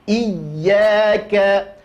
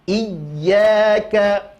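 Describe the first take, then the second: The two takes are said the same way.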